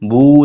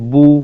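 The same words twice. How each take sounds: First: The vowel is said with unrounded lips. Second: The vowel is said with rounded lips. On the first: The speaker calls it wrong. "বু যেন না হয়ে যায়" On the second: The speaker calls it right. "ঠোঁট গোল করলে আপনার পড়াটা আরো সুন্দর হবে"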